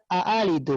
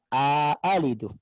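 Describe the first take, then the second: First: The two glottal stops come with no vowel between. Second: A long a sound separates the two glottal stops.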